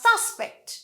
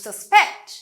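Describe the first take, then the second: First: The stress is on the first syllable. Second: The stress is on the second syllable. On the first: It is used as a noun. "নাউনে আমাদের first অংশে stress হয়" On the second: It is used as a verb. "ভার্বে পরের অংশে stress হয়"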